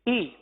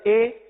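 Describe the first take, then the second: First: The vowel is a close 'ee' sound. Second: The vowel is an open 'eh' sound. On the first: The speaker calls it right. "यह है मारूफ तरीका" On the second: The speaker calls it wrong. "तो ये मजहूल हो जाएगा"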